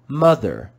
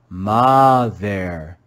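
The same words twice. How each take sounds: First: The first vowel is a schwa sound. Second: The first vowel is a short O sound. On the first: The speaker calls it right. "a vowel O that makes the sound of the schwa, uh" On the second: The speaker calls it wrong. "You could read it with a short O sound and read mother"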